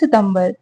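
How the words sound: The month name is said as Hindi sitambar. "Hindi में बोलेंगे"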